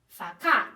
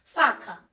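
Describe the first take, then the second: First: "facá" stressed on the last syllable, fa-CÁ; "facá" with a strong final syllable; shifted stress. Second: "Faca" stressed on the first syllable, FA-ca; "Faca" with a strong first syllable; usual word stress. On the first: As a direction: say "facá" with the weight thrown onto CÁ. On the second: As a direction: say "Faca" with weight on FA, falling on ca. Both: Shown as a demonstration. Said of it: "atenção na entonação como a pessoa fala".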